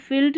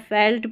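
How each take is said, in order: First: Felt said as "filt", short "ih" vowel; mistaken "filt" reading. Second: Felt with an open "eh" vowel; correct "felt" pronunciation. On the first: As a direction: misread felt with the vowel of "fit". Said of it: "felt नहीं पढ़ना है". (felt को "फिल्ट" बोलें) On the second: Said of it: "felt पढ़ेंगे". (felt यानी फेल्ट, "ए" स्वर के साथ) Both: Shown as a demonstration.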